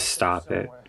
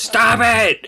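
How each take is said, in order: First: It is said fairly softly. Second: It is said loudest of all.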